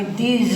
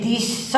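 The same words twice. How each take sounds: First: ધીઝ ending in a drawn-out Z sound; ધીઝ said slowly with a voiced Z ending; pronunciation of these. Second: ધીસ ending in a drawn-out S sound; ધીસ said slowly with an unvoiced S ending; pronunciation of this. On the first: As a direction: stretch the final buzzing Z in ધીઝ. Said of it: "આ ઉચ્ચાર થાય અને ધીઝ એટલે આ". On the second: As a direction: stretch the final hissed S in ધીસ. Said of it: "આ ઉચ્ચાર થાય". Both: Shown as a demonstration.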